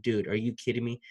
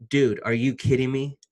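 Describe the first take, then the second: First: Said in the usual way. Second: Genuinely stunned, punching Dude louder; real disbelief, said louder. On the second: Real, not acted. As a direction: let the real disbelief burst out. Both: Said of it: "And I'm saying that right now".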